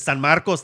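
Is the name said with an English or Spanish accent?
Spanish. The name is said with a Spanish accent. "If I can speak Spanish, I should"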